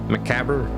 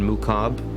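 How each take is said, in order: First: The word is said in a North American way. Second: The word is said in a French way. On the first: "That's that's my North American accent" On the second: "would be the more French one"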